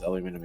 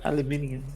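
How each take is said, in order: First: The word is said with four syllables. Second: The word is said with five syllables. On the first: The speaker calls it wrong. "I hate saying it that way" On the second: The speaker calls it right. "Because it's aluminium"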